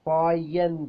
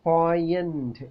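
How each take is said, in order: Both takes have the same delivery.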